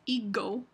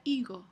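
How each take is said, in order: First: Higo with a hard stopped g; higo, the g fully closed; a stop g in higo, the wrong way. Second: Higo with a soft breathy g; higo, the g gently rubbed; higo, let the g slide softly; soft fricative g. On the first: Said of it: "no es higo". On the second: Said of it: "se pronuncia higo". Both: Shown as a demonstration.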